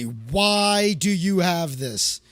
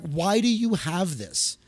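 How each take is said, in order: First: Long, stretched "Why" in mock outrage; drawn-out WHY. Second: Slow, mildly appalled question; imitated horror. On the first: Horrified friend questioning his albums, "Why" hugely drawn out. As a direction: hold "Why" very long, appalled. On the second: Horrified friend finding his albums by a singer, mild imitated disbelief. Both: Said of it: "And she was horrified".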